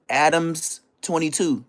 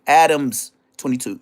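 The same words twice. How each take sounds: First: "Adams twenty-two" slow with the s clear; correcting the name, slowly; stress the s in Adams. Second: "Adams" punched louder; firm correction "Adams"; stress on Adams. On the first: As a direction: spell out "Adams" with the s. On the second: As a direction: hit "Adams" hard. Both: Shown as a demonstration. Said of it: "Not Adam twenty-two".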